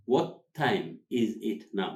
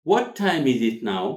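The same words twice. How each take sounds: First: Slow, each word set apart; slow word-by-word model. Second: Louder, words run together; natural linked delivery. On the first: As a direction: spell out the phrase for learners, slowly. Teacher repeats it word by word. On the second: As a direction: model it as one connected phrase. Teacher models natural linked phrase. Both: Shown as a demonstration.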